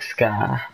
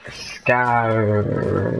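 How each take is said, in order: First: The final R sound is dropped. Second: The final R sound is clearly pronounced. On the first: The speaker calls it wrong. "everyone keeps telling me I say it like scar" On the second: The speaker calls it right. "I'm trying to say it like pronouncing the R"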